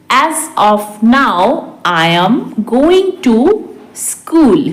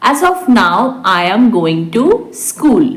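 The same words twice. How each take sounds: First: Very measured, with pauses; slow repeat. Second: Said in the usual way. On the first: Shown as a demonstration. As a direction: stretch each phrase for learners. Teacher repeats translation word by word. (बहुत धीरे, रुककर)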